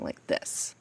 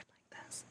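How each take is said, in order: First: It is said in a normal speaking voice. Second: It is said in a whisper. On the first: "as if I was talking like this" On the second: "whispered like this"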